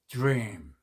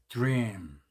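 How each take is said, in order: No difference in how they are said.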